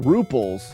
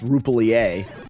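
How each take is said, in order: First: The word is said with a plain English ending. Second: The word is said with a French-style ending. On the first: The speaker calls it wrong. "Some people pronounce it uh" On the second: The speaker calls it right. "it was France, and it's actually pronounced Ruplier"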